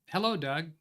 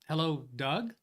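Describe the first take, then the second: First: It is said as an exclamation, falling. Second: It is said as a question, rising.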